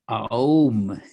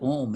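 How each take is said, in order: First: It is drawn out through separate vowel sounds. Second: It is said as one short blended syllable. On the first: The speaker calls it right. "it's actually Aum" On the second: The speaker calls it wrong. "it's not Om"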